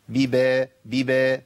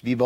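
First: "ببا" with thin ba and front vowel, like "bibe"; light ba. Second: "ببا" with a dark, rounded "bo"; thickened ba. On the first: Teacher drilling the correct sound, light ba. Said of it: "نرقق الباء". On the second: Teacher showing what to avoid, thickened ba. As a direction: darken the second ba of "ببا". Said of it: "مش ببا". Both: Shown as a demonstration.

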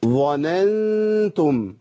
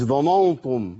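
First: ظننتم very slow with an open a; ظننتم clear and light after the ẓa; correct open a. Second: ظننتم with a dark rounded vowel; ظننتم wrongly rounded. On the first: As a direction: say ظننتم spread, no rounding. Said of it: "مش". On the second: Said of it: "ما تنفعش". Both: Shown as a demonstration.

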